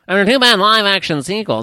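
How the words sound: It is read in an old-time newsreader voice.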